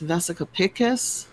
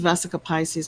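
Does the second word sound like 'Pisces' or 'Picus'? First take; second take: Picus; Pisces. First: The second word sounds like 'Picus'. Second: The second word sounds like 'Pisces'. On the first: The speaker calls it right. "but it's Vesica Picus. I think I'm saying it correctly now" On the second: The speaker calls it wrong. "everybody says Vesica Pisces"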